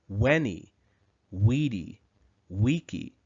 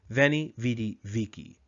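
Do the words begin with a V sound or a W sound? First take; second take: W sound; V sound. First: Each word begins with a W sound. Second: Each word begins with a V sound.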